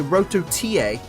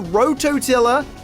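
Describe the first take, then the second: First: The word is said in a Spanish accent. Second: The word is said in a plain English accent.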